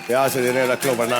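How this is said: It is said in a harsh, threatening way.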